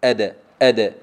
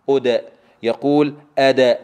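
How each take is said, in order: First: أدى louder, with a short neutral bounce on d; crisp corrected أدى, brief echo on the d; correct qalqala. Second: أدى with the bounce turned into an open a; faulty أدى with over-opened d; wrong exaggerated qalqala. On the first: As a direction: model أدى firmly, d released without a full vowel. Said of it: "قل معي". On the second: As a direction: show the mistake أدى, full vowel after d. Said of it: "هذا غير صحيح". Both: Shown as a demonstration.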